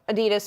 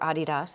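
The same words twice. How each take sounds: First: The name is said the usual American way. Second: The name is said the usual European way.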